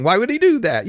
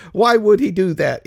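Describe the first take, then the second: First: Why would he DO that, DO leaned on; mock-puzzled question, weight on do; stress on do. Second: Why would HE do that, HE pushed louder; mock-puzzled question, weight on he; stress on he. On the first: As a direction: lean on the word do, falling after it. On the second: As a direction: hit the word he, falling after it. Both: Shown as a demonstration.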